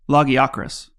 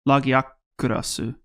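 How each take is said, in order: First: The name is said with English pronunciation. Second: The name is said with Japanese-style pronunciation.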